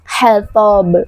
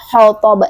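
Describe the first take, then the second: First: The first consonant is light and thin. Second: The first consonant is heavy and thick. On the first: The speaker calls it right. "selesaikan dulu haknya huruf H yang tipis" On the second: The speaker calls it wrong. "sudah bersiap-siap mengucapkan huruf tebal"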